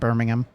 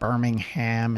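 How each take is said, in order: First: The name is said with a British pronunciation. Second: The name is said with an American pronunciation. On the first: The speaker calls it right. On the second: The speaker calls it wrong.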